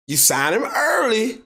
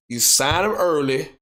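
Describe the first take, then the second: First: "You sign him early" said slower and higher, leaning on "early"; stress on early. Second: Said in the usual way. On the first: Shown as a demonstration. Telling teams to lock up their quarterback, slow emphatic stress on "early". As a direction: drag out "early" to hammer the point home.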